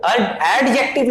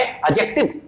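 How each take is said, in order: First: एड-, एडजेक्टिव with a clear D sound; the wrong way: sound the D in एडजेक्टिव; wrong pronunciation. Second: एडजेक्टिव said "ed-jek-tiv" with the D silent; the right way: drop the D in एडजेक्टिव; correct pronunciation. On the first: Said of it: "नहीं पढ़ेंगे". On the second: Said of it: "ये होता है". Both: Shown as a demonstration.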